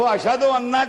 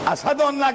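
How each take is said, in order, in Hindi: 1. पहले शब्द में sh की आवाज़ है। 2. पहले शब्द में s की आवाज़ है। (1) "शीन नहीं निकलता" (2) "असदु अन्ना कहते हैं"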